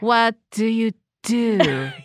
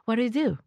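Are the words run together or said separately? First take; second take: separately; run together. First: Each word is said separately and forcefully. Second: The words are slurred smoothly together. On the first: It sounds a little intense. The speaker calls it wrong. "A little strong" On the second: It sounds casual and natural. The speaker calls it right. "Oh, this is so good"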